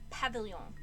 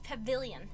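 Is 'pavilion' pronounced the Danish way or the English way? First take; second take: Danish; English. First: The word is pronounced the way Danish would. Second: The word is pronounced the standard English way. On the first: The speaker calls it wrong. "I kept saying pavilion. Because I didn't know how to pronounce it" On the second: The speaker calls it right. "I'm pretty sure it's pavilion"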